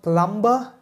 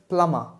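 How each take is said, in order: First: The B sound is pronounced. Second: The B sound is silent. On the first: The speaker calls it wrong. "So it's not plumber" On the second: The speaker calls it right. "the B in the word plumber is silent"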